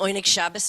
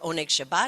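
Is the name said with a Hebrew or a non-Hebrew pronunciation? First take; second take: non-Hebrew; Hebrew. First: The name is said with a non-Hebrew pronunciation. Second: The name is said with a Hebrew pronunciation.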